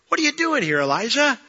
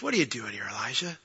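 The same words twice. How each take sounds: First: High-pitched pointed question. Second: Low, soft question; still small voice. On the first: God questioning the runaway prophet, high-pitched challenge. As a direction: ask it high, falling then lifting. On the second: God asking Elijah again at the cave, gently. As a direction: ask it gently, dropping low. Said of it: "Then he heard the still small voice". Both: Acted.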